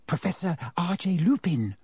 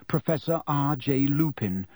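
First: High, unvoiced whisper. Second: Said in the usual way. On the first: A narrator's reading. Girl naming the sleeping stranger to friends, whispered. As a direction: whisper the name to your friends. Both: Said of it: "whispered Hermione at once".

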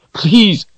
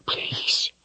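First: Very high, cracking please; a rising, desperate plea; pleading. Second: Whispered please, no voice; a broken, tearful whisper; begging whisper. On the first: Richard begging Darken Rahl to spare her, very high plea. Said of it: "pleading up to him". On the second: Richard begging in tears, whispered plea. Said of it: "Richard begged in tears". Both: Acted.

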